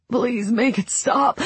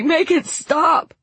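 First: Slow, pleading through sobs; sobbing plea. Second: Higher, slow, breaking desperate plea; desperate sobbing. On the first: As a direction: beg slowly as if crying. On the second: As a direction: cry it out, pleading harder. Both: A narrator's reading. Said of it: "Franklin sobbed".

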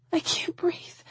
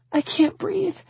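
First: High, fading whisper of distress; breathless whisper. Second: Very high, tearful voice; panicked. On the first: Woman collapsing into his arms, whispering. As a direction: whisper it with no air left. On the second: Woman falling apart in his arms, panicked. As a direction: squeeze it out in high distress. Breaking down, cannot breathe. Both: A narrator's reading.

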